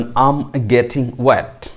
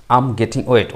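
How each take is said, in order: First: Extremely slow, words drawn out; very slow model. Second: Said in the usual way. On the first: Shown as a demonstration. Teacher modelling the phrase first very slowly. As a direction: stretch the phrase out for learners. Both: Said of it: "এটাকে আপনি বলবেন".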